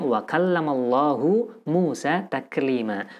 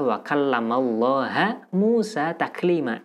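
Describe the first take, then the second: First: The word for God ends with a 'u' vowel. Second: The word for God ends with an 'a' vowel. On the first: God is the one who spoke to Moses. The speaker calls it right. "suatu ayat yang bunyinya" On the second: Moses is the one who spoke to God. The speaker calls it wrong. "hanya satu harokat yang berbeda, namun maknanya berlawanan"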